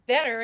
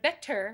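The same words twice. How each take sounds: First: The middle t sounds like a d. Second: The middle t sounds like a t. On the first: The speaker calls it wrong. "we pronounce our T's like the letter D" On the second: The speaker calls it right. "instead of"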